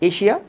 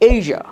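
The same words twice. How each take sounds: First: The middle consonant is a voiceless hissing sound. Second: The middle consonant is a voiced buzzing sound. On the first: The speaker calls it wrong. "Not এশিয়া" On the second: The speaker calls it right. "But এশিয়া"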